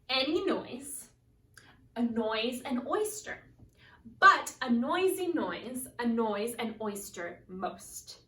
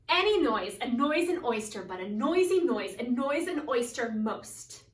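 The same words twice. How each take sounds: First: It is said very slowly. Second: It is said faster.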